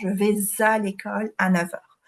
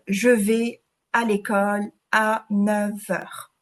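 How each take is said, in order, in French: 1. La phrase est prononcée rapidement. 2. La phrase est prononcée lentement. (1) "Si c'est rapidement" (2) "s'il avait pioché la carte lentement"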